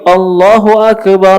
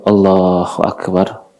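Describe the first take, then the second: First: The phrase is said in a loud voice. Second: The phrase is said in a soft voice. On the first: "Setelah itu dia keraskan lagi" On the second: "Lalu dia lirihkan suaranya"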